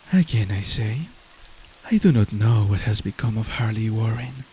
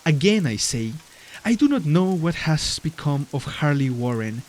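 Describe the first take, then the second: First: It is read in a soft, breathy voice. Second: It is read in a normal speaking voice.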